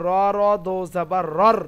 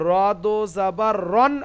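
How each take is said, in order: First: Slow spelling, "রর" ending in r instead of n; merged r. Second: "রন" ending in a clear n; unmerged reading. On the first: Teacher showing how r joins r, merged reading. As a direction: merge into a doubled r on "রর". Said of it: "র এর সঙ্গে র মিলাবে". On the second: Teacher spelling the unmerged form for students, unmerged reading. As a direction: spell it out slowly to "রন", keeping the n. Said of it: "কিন্তু র এর সঙ্গে র মিলাবে". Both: Shown as a demonstration.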